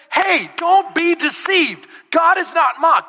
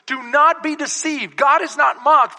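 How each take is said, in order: First: "Hey, don't be deceived" drawn out high, "God is not mocked" shouted; emphatic speech. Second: Raised, measured verse reading; preached scripture reading. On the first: Preacher voices Paul warning the Galatian church, emphatic. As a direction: hammer "deceived" and "mocked" slowly and loudly. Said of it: "That's emphatic speech there". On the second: Real, not acted. Preacher quotes Galatians to the church, preached reading. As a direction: read the verse out firmly to the room.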